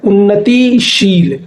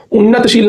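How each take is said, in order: First: Slow उन्नतिशील, drawn-out ti before sheel; correct form. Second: उन्नतशील with no i, unnat-sheel; wrong form. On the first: Teacher correcting students, उन्नतिशील slow with a clear ti. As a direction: stretch the i in उन्नतिशील. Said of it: "ये होता है". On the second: Teacher citing the mistake, उन्नतशील without the i. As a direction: say उन्नतशील ending its first part in bare t. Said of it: "नहीं होता". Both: Shown as a demonstration.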